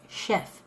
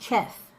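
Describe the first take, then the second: First: The word begins with an 'sh' sound. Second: The word begins with a 'ch' sound. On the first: "that sounds like S H E F" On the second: "It don't sound right saying chef, but it's C H"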